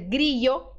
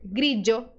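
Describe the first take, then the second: First: The middle consonant is a y sound. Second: The middle consonant is a dj sound. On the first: "pode ser pronunciado como I" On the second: "pode ser pronunciado como D J"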